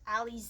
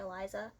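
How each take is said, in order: First: The name is pronounced like Alize. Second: The name is pronounced like Eliza. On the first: This is the intended pronunciation. "I think is how you pronounce it" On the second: This is how the reader said it while reading. "but I was pronouncing it Eliza"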